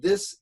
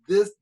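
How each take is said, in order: First: It begins with a soft TH sound. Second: It begins with a hard D-like sound. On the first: The speaker calls it right. "should be this and that" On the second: The speaker calls it wrong. "the T H sound"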